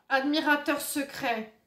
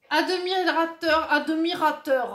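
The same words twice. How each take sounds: First: Said in the usual way. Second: "Admirateur" slow and high, with an extra vowel after the d; exaggerated pronunciation. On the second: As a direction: declaim "Admirateur" as a-do-mi-ra-teur, loud and drawn out. Exagère le mot lu sur la carte.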